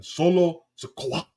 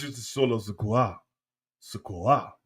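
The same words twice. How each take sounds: First: "Solo Sikoa" slow, with "Sikoa" lifted at the end; Polynesian-style "Sikoa", drawn out and raised; Polynesian pronunciation. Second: Slow, softened French "Sikoa"; French-accented "Sikoa", gently stretched; French pronunciation. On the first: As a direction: stretch "Solo", then punch "Sikoa" higher. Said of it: "In Polynesian". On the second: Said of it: "If it's French". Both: Shown as a demonstration.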